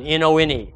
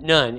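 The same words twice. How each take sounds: First: "N O N E" spelled out, each letter punched. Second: Said in the usual way. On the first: Shown as a demonstration. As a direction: hammer home "N O N E" one letter at a time. Spells out none for emphasis.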